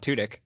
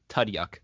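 First: The name ends with a short 'dik' sound. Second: The name ends with a 'dyook' sound. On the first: The speaker calls it right. "You said it correctly" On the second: The speaker calls it wrong. "because I always say Tudyuk"

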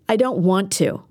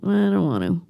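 First: It is said loudly and with force. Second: It is mumbled, low and unclear. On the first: "Or I can use force" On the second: "I can mumble"

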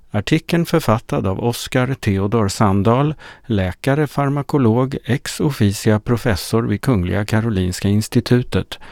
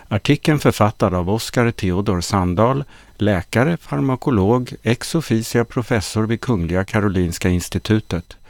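No difference in how they are said.

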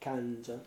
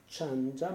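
First: The first consonant is hard, like 'k'. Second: The first consonant is soft, like 'ch'. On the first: The speaker calls it right. "ma è kanja, so the C is hard there" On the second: The speaker calls it wrong. "non è chanja"

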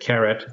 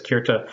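First: The name is said as Keret. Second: The name is said as Kirta. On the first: This is an older pronunciation. "in Gordon's pronunciation, he used to pronounce it Keret" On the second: This is the pronunciation accepted today. "Today, I think we're pretty secure that it's Kirta"

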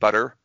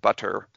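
First: The middle consonant is a quick flap. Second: The middle consonant is an aspirated T. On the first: "that's a flap in the middle" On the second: "butter with an actual T, an aspirated T"

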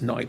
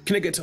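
First: The word is pronounced in the ordinary way. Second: The word is pronounced in an odd, distorted way. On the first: "that's knight" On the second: "I just like to pronounce it weirdly"

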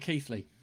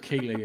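First: The name is not pronounced the way it's spelled. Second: The name is pronounced the way it's spelled.

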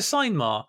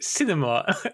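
First: The first syllable sounds like 'sign'. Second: The first syllable sounds like 'sin'. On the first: The speaker calls it wrong. "I bet you don't call it... Oh, it's a sign mar" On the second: The speaker calls it right. "Have you ever seen the word cinema"

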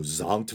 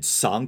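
First: The word begins with a buzzing Z sound. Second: The word begins with a hissing S sound. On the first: The speaker calls it right. "the S should be pronounced as a Z" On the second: The speaker calls it wrong. "I said Sankt Walpurgis Nacht"

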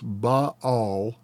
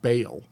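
First: Both vowels are sounded separately, in two syllables. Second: The vowels merge into a single syllable. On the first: The speaker calls it right. "you pronounce both letter. I am told it's Baal" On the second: The speaker calls it wrong. "and not Baal"

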